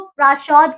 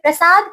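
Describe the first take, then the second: First: It has a sh sound and rounded vowel. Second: It has a plain s sound and short a.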